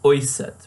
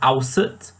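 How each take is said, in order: First: The first vowel sounds like 'oy' with umlaut. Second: The first vowel sounds like 'ow' without umlaut. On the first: The speaker calls it right. "when it should be oiset" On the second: The speaker calls it wrong. "I said ausset"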